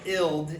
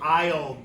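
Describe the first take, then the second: First: "ild" with short i as in "it"; short-vowel ILD. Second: "aisle" with long i as in "ice"; long-vowel ILD. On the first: Teacher showing what the letters don't say, short-vowel "ild". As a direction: say "ild" with a clipped short i, the wrong reading. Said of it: "this doesn't say ild". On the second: Teacher showing what the letters really say, long-i "aisle". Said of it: "It says I, like ice cream". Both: Shown as a demonstration.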